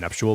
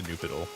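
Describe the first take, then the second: First: The middle is said with a 'sh' sound. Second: The middle is said with a 'd' sound. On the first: The speaker calls it right. "The nuptial bell, not the Nupidal" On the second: The speaker calls it wrong. "That's not the right pronunciation"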